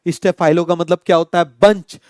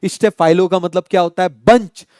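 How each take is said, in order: Both takes have the same delivery.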